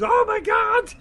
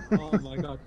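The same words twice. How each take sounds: First: High, loud shocked shout; shocked yell. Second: Said in the usual way. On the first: Retold or imitated. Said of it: "that other guy goes".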